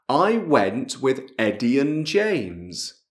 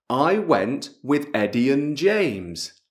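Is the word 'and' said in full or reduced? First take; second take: reduced; reduced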